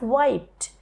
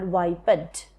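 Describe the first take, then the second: First: The word is said as one syllable. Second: The word is said as two syllables. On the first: This is the modern pronunciation. "now we pronounce it as wiped, which is one syllable" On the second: This is the older Elizabethan pronunciation. "in Elizabethan era, this was called wiped"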